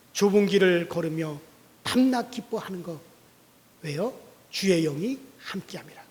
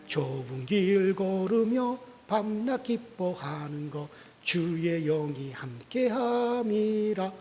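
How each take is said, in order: First: Said in the usual way. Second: Slow unaccompanied hymn singing; sung hymn. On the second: Shown as a demonstration. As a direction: sing it as a drawn-out church hymn. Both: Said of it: "우리가 찬송하잖아요".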